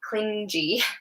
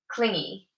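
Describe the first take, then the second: First: The G is said as a soft sound. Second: The G is said as a hard sound. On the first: The speaker calls it wrong. "often my students will pronounce it like clingy" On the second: The speaker calls it right. "the G is like G"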